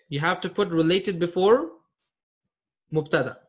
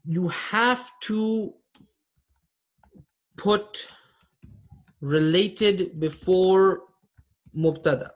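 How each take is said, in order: First: Said in the usual way. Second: Slow and deliberate, pausing between phrases; slow dictation. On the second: Shown as a demonstration. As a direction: spell the rule out slowly for students.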